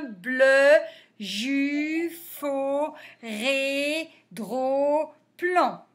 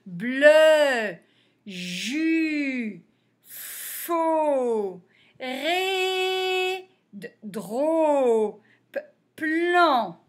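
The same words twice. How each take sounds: First: Even chant of linked syllables; quicker syllable reading. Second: Long consonants and held vowels, with pauses; slow sounding out. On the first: Teacher repeating the list for pupils, quicker and linked. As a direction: move steadily from syllable to syllable. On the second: Teacher reading syllables for beginners, slowly sounded out. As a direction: stretch each syllable, repeat some first consonants. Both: Shown as a demonstration.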